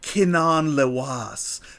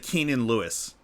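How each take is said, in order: First: The name is said with unusual, alien-sounding vowels. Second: The name is said like a common English name. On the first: The name is meant to sound like a sci-fi character. "if you wanted to go Star Wars with it" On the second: The name is meant to sound like a normal person's name. "or you could just say"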